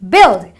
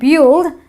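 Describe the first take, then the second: First: The vowel is a short i sound. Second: The vowel is not a short i sound. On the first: The speaker calls it right. "the U I produces a short eh sound" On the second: The speaker calls it wrong. "it's not build"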